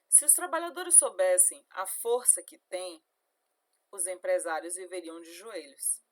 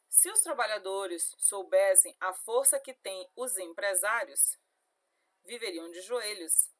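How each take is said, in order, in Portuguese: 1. A pausa fica logo antes de 'os empresários'. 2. A pausa fica logo depois de 'os empresários'. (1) "Os trabalhadores é quem tem a força" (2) "se eu digo"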